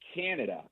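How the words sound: The first vowel is a different eh-like sound. "In English, you say Canada, and that first eh in Canada"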